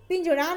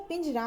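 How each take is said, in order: First: पिंजड़ा with retroflex ṛ; wrong pronunciation. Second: Said in the usual way. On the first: Shown as a demonstration. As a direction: curl the tongue at the end of पिंजड़ा. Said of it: "पिंजड़ा नहीं होता". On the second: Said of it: "पिंजरा होता है".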